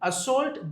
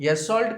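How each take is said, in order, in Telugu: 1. రెండో అక్షరంలో 'oh' అచ్చు ఉంది. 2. రెండో అక్షరంలో 'ah' అచ్చు ఉంది. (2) "అసాల్ట్ కాదు"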